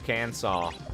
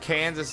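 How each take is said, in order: First: The word ends with an aw sound. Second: The word ends with an s sound.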